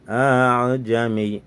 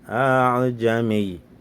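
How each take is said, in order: The two takes are said the same way.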